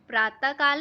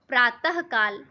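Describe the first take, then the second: First: No breathy h sound follows the first word. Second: A breathy h sound follows the first word. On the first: The speaker calls it wrong. "मैंने प्रातः काल नहीं बोला" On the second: The speaker calls it right. "विसर्ग"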